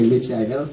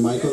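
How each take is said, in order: First: Michael said the Mexican way, like Mee-chah-el; mock Spanish reading of Michael; Spanish-style Michael. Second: Said in the usual way. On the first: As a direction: imitate how Mexican relatives say Michael. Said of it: "they say Michael". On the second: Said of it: "instead of saying Michael".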